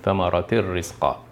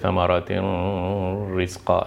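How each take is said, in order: First: The n sound merges into the r. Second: The n sound is kept before the r. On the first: The speaker calls it right. "No, thamaratir rizqa" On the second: The speaker calls it wrong. "We don't say thamaratin rizqa"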